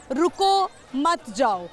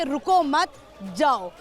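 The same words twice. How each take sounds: First: "रुको", pause, then "मत जाओ" together; pause after रुको. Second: "रुको मत" together, pause, then "जाओ"; pause after मत. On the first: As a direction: stop on रुको, then slowly plead मत जाओ as one phrase. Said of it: "बोलने का कुछ अंदाज़ होता है". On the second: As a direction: run रुको into मत, break, then a separate जाओ. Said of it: "उसने समझा कि रुको मत जाओ". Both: Shown as a demonstration.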